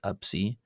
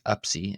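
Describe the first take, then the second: First: A B sound comes before the s. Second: A P sound comes before the s. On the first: "as a B instead of a P" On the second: "this can be pronounced as Apsi"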